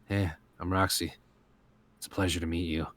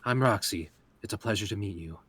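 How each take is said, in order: First: It sounds flat, gloomy and uncaring. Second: It sounds brighter and more engaged.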